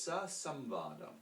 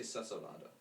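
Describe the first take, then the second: First: Samvada with the m clearly sounded, sam-va-da; teacher giving the correct form of the word; full form sa samvada. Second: Said in the usual way. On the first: Shown as a demonstration. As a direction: stress the restored m in samvada. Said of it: "But it's". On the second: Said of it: "We just say".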